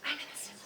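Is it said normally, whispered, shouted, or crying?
whispered. It is said in a whisper.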